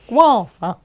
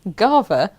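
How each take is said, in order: First: The word starts with a 'gwah' sound. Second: The word starts with 'gah', like guard. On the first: This is how the speaker says it should be said. The speaker calls it right. "it's not though. It's guava" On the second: This is how someone else insisted on saying it. The speaker calls it wrong. "It's Gava, like guard"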